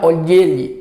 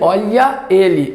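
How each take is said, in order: First: The final vowel is dropped, joining both words. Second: The two words are said separately, with both vowels.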